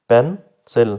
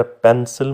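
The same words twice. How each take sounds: First: पेन, सिल with a clear gap between the parts; two separate syllables. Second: Said in the usual way. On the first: Shown as a demonstration. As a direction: break pencil into पेन and सिल. (पेन और सिल अलग-अलग बोलकर) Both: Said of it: "दो syllable हुए".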